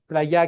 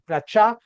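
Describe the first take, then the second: First: The middle consonant is a 'y' sound. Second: The middle consonant is a 'sh' sound.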